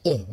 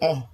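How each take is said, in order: First: The vowel is a close 'ee' sound. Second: The vowel is an open 'eh' sound. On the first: The speaker calls it right. "Jadi ih bukan eh" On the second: The speaker calls it wrong. "bukan eh"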